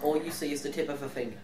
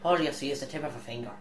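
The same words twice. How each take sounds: First: It is read in the speaker's usual accent. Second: It is read in a put-on Irish accent.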